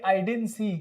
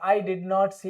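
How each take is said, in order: First: Did and not are joined into one contracted word. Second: Did and not are said as two full words. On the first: The speaker calls it right. "डिड नॉट को short में क्या बोलेंगे" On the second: The speaker calls it wrong. "ऐसे बोलते थे, लेकिन अब नहीं बोलेंगे भाई"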